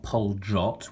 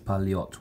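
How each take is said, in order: First: The middle consonant is an English J sound. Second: The middle consonant is an English Y sound. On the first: The speaker calls it wrong. "It's not Poljot with a J" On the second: The speaker calls it right. "it's Palyot with a Y sound"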